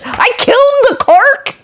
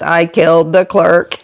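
First: It sounds like shocked, disbelieving repetition. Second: It sounds like a flat, admitting statement.

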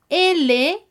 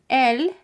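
First: The letter is named with Spanish pronunciation. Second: The letter is named with French pronunciation. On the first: "La letra L" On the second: "que se convierte en L"

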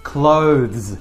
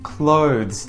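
No difference in how they are said.

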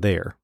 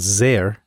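First: The word begins with a TH sound. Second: The word begins with a Z sound. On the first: This is how an English speaker would say it. "instead of" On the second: This is how a German speaker would say it. "Z or Z for the. Or the TH sound"

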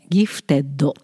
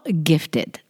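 First: It is said with Japanese katakana-style sounds. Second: It is said with English-style sounds. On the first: "ギフテッドはカタカナで頑張って発音しようとした" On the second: "英語で言うと"

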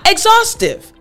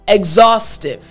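First: The pitch rises noticeably within the word. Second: The pitch stays level across the word. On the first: The speaker calls it wrong. "We don't really go up" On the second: The speaker calls it right. "We normally say this word at the same level"

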